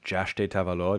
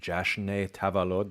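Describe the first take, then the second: First: The first word ends with a 't' sound. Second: The first word ends with an 'n' sound. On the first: "what I'm hearing when I listen to it is Jashte Tavalod" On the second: "They teach us Jashn"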